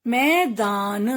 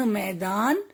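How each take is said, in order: First: "मैदान" split slowly as मै-दा-न; teacher's drawn-out "मैदान"; sounding out. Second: Said in the usual way. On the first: Shown as a demonstration. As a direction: stretch each syllable of "मैदान". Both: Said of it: "कुछ ए के शब्द भी हैं".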